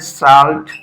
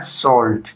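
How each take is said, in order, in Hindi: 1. स्वर खुला 'aa' जैसा है। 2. स्वर गोल होकर 'aw' जैसा है। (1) "ऐसे इसको पढ़ोगे हिंदी में साल्ट, तो ये गलत हो जाएगा" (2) "इसको पढ़ना है सॉल्ट।"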